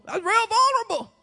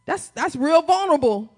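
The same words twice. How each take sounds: First: High-pitched squeamish repeat; mock discomfort. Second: Said in the usual way. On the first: Preacher voicing unease at asking for encouragement, high and squeamish.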